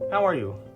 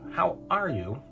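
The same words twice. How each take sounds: First: It is asked casually, with no word emphasized. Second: It is asked sincerely, with one word emphasized.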